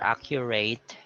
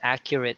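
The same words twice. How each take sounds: First: The ending sounds like the word 'eight'. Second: The ending sounds like 'it' in 'kit'. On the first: The speaker calls it wrong. "you don't say ... or accurate" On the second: The speaker calls it right. "It's accurate. So it's like R I T"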